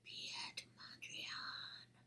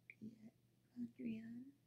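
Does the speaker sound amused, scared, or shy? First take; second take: scared; shy. First: It is said as if very scary. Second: It is said in a very shy way.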